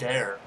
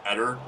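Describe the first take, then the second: First: Eder said as "AY-dair"; long A, full "dair" ending in Eder; announcer's pronunciation. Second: Eder said as "ED-er"; short E and weak ending in Eder; own pronunciation. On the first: Retold or imitated. Player mimicking the announcer, Eder as "AY-dair". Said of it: "but the announcer's like". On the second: Shown as a demonstration. Player naming his footballer, Eder as "ED-er". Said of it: "there's no A in his name".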